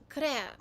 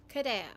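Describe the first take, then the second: The two takes are said the same way.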